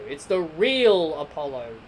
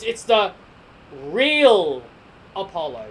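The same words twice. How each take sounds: First: Said in the usual way. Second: "real" punched loud and drawn out; correcting himself by leaning on "real"; stress on real. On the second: Shown as a demonstration. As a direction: hit the word "real" hard, then drop on "Apollo". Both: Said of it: "Oh, sorry, I shouldn't call it the new Apollo Crews".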